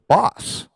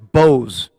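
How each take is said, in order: First: The name has a short 'o' vowel. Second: The name has a long 'oh' vowel. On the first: "we're pronouncing that one wrong too" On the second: "It's Bose"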